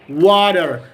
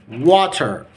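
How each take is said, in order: First: It is said in an American accent, with a d-like t. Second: It is said in an Egyptian-style accent. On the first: "in the American accent, we can say water. Water. Slight D" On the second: "That's in the Egyptian accent or in uh, normal accent"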